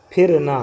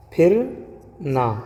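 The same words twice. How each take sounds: First: Said in the usual way. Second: پھرنا drawn out very slowly with a clear aspirated ph; slow sounded-out word. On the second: Shown as a demonstration. Teacher drawing out پھرنا slowly for students. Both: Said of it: "اسی طریقے سے".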